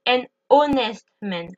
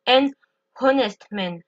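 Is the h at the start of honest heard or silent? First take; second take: silent; heard. First: The h of honest is silent. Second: The h of honest is breathed out audibly. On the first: The speaker calls it right. "Je dis ... je ne prononce pas le H" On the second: The speaker calls it wrong. "je ne dis pas"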